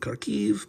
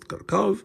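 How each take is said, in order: First: The name ends with a 'kiv' sound. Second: The name ends with a 'kov' sound. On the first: This is the name used today. "You should say Kharkiv" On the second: This is the name used under Soviet control. "when controlled by Soviet Russia, this is pronounced Kharkov"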